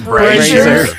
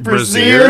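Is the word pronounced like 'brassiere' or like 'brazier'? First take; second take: brazier; brassiere. First: It is pronounced like the word brazier. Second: It is pronounced like the word brassiere. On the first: The speaker calls it right. "instead of brazier" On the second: The speaker calls it wrong. "you said brazier instead of"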